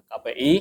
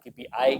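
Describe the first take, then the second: First: The letters are read with Indonesian letter names. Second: The letters are read with English letter names. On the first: The speaker calls it right. "karena ini bahasa Indonesia" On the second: The speaker calls it wrong. "bukan K P I ya"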